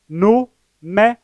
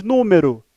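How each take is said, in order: First: "número" slowly as nú, me, ro; syllable by syllable. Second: Said in the usual way. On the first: Shown as a demonstration. Teacher showing viewers three syllables, "número" split into nú - me - ro. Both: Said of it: "São três sílabas".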